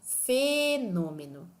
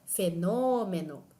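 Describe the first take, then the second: First: A syllable other than 'nô' is drawn out. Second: The syllable 'nô' is drawn out. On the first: The speaker calls it wrong. "Eu não digo fenômeno" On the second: The speaker calls it right. "esse O é a vogal tônica"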